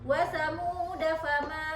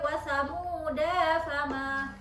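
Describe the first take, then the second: First: The final vowel of thamuda is short. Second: The final vowel of thamuda is long. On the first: The speaker calls it right. "alif itu tidak dibaca" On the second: The speaker calls it wrong. "nggak boleh"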